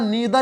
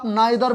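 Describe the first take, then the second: First: The first vowel sounds like 'ee'. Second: The first vowel sounds like 'eye'.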